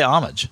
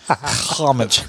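First: The word starts with a plain h sound. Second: The word starts with a harsh throaty sound. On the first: The speaker calls it right. "I just say homage" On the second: The speaker calls it wrong. "I don't add the Hebrewish, you know, thing to it"

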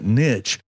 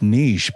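First: It is said the American way. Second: It is said the non-American way.

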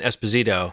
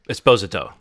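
First: The stress is on the third syllable. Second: The stress is on the second syllable. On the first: The speaker calls it wrong. "We've all been saying Esposito" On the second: The speaker calls it right. "the emphasis is on the second syllable, not the third"

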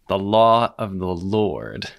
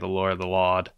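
First: It is said in a careful standard accent. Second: It is said in a New England accent.

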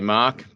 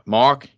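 First: It is said in an Australian accent. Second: It is said in an American accent.

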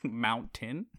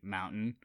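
First: The middle T sound is clearly pronounced. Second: The middle T sound is dropped. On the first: This is how the speaker says it now. "But now I say it" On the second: This is how people from Arizona say it. "Arizonans don't say their T's"

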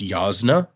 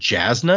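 First: The name starts with a Y sound. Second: The name starts with a J sound. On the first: The speaker calls it right. "the J is actually supposed to make like a yaw sound, so it's Jasna" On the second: The speaker calls it wrong. "I've always said Jasna, because it begins with a J"

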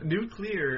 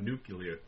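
First: The ending sounds like 'clear'. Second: The ending sounds like 'cular'. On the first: The speaker calls it right. "Nuclear is my attempt at pronouncing it" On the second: The speaker calls it wrong. "not nuclear"

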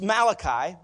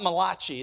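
First: The name is said with an English pronunciation. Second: The name is said with an Italian-sounding pronunciation. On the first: The speaker calls it right. "It's Malachi" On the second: The speaker calls it wrong. "It's not Malachi. It's not an Italian name or a designer"

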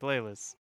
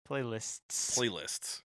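First: The word is said casually, without careful articulation. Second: The word is said with careful, clear articulation. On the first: The speaker calls it wrong. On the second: The speaker calls it right.

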